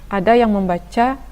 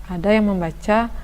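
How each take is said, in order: The two takes are said the same way.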